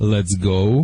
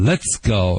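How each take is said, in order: First: It is said in a plain, ordinary tone. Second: It is said in a sharp, barking tone.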